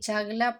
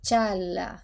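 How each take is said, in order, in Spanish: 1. Se dice un sonido g claro antes de la l. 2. No hay sonido g; la primera vocal se alarga. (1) "pronunciando la G" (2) "no se pronuncia y se estira el sonido de la vocal anterior"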